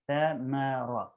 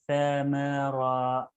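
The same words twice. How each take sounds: First: The vowels are said short and quick. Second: The vowels are stretched out long. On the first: The speaker calls it right. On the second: The speaker calls it wrong.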